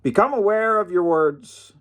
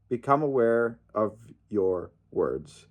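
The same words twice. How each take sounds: First: "Become aware of your words" thrown out high, with a hard hit on "Become"; emphatic high call. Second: "Become aware of your words" again, softer and slower, leaning on "Become"; quiet slow repeat. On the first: Telling fans how to speak, emphatic and high-pitched. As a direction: stress "Become" and lift the whole line high. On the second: Repeating the lesson to fans, softly and slowly. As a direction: let it sink in, soft and slow. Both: Shown as a demonstration. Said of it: "That's the point, guys".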